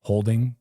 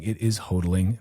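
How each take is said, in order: First: Holding said with a clear l, HOHL-ding; plain holding, l sounded; the word he meant, holding; the real word. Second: Hodling said as hoh-dling, three clear beats; careful corrective hodling; correct pronunciation. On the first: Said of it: "literally talking about". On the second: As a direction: say hodling with the d kept, HOH-dl-ing. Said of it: "for anyone listening". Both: Shown as a demonstration.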